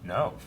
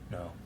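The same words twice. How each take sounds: First: The word is said in a harsh, angry tone. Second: The word is said in a gentle, sympathetic tone. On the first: "angry no" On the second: "empathetic no"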